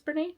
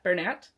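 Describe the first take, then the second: First: The name ends in a vowel, no final t. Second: The name ends with a clear t sound. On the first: The speaker calls it right. "I believe it's Bernay" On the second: The speaker calls it wrong. "not Bernat"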